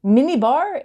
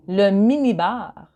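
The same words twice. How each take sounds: First: Said in the usual way. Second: "minibar" said the French way, rolled back r, stress at the end; French accent. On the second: Shown as a demonstration. Teacher showing learners the French minibar, French accent. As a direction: give "minibar" a French sound. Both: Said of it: "but you say it with a French accent".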